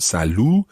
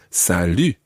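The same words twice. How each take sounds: First: The last vowel is a plain 'oo' sound. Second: The last vowel is a fronted French 'u' sound. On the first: The speaker calls it wrong. "It's not salut" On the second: The speaker calls it right. "we can use that U sound"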